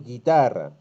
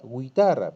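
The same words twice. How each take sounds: First: The u after the g is silent. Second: The u after the g is pronounced. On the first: The speaker calls it right. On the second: The speaker calls it wrong.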